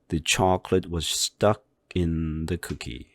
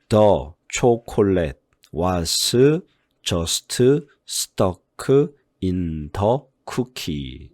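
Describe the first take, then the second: First: Small words are reduced and run smoothly together. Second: Each word is stressed separately, in a choppy rhythm. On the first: The speaker calls it right. "이런 식으로 읽으면 되는 겁니다" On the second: The speaker calls it wrong. "이런 식으로 한국식으로 읽어버리면 안 돼요"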